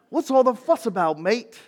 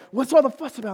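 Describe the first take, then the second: First: It is said in a put-on Australian accent. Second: It is said in the speaker's own accent.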